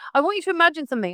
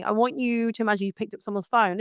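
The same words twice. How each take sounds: First: Fast, high, punchy "imagine"; emphatic. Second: Said in the usual way. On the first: Acted. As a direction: hit "imagine" hard and fast. Rhetorical setup to audience.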